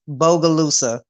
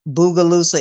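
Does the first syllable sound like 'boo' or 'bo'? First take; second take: bo; boo. First: The first syllable sounds like 'bo'. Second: The first syllable sounds like 'boo'. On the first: The speaker calls it right. "I'm gonna say this right" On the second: The speaker calls it wrong. "I pronounced it wrong. I pronounced it Boogaloosa"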